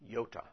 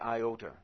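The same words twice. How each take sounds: First: It is said with a Greek pronunciation. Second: It is said with an English pronunciation. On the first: The speaker calls it right. "It is the iota" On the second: The speaker calls it wrong. "it is not the iota"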